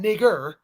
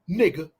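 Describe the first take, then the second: First: The word ends with an 'er' sound. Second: The word ends with an open 'a' sound. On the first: "not the E R" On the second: "the the A"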